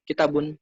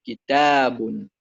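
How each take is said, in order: First: Kitabun short and quick, no long vowel; missing alif. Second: Kitabun slow, with a long stressed taa; long alif. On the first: Showing students the mistake, kitabun without long alif. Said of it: "Kalau kitabun itu nggak ada alifnya". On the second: Correcting students' reading, kitabun with long alif. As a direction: stretch the middle vowel of kitabun, louder. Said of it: "nggak ada alifnya". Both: Shown as a demonstration.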